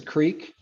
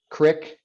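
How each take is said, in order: First: Said in the usual way. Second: Creek said as "crick"; short i in creek, rhyming with brick; rural pronunciation. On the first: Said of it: "urban kind of separation". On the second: Shown as a demonstration. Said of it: "You get that rural".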